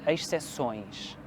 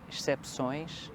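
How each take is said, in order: First: No 'p' sound is pronounced before the 'ç'. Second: A 'p' sound is pronounced before the 'ç'. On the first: "mas eu acho que é exce- exceções" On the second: "Então nós dizemos excep- excepções"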